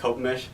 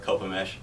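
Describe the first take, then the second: First: The name is said quickly and casually. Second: The name is said slowly and clearly. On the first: It is said among people who know the place. "You're saying it fast, kind of just" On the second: It is said to someone new to the name. "tell somebody who's never heard of it before"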